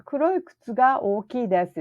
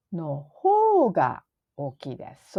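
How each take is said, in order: First: Said in the usual way. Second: の方が said clearly and held; stress on の方が. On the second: Shown as a demonstration. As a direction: lean on の方が in the answer. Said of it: "So it's の方が。".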